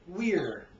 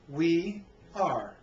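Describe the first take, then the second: First: The words are joined into one syllable. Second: Two full words are said separately.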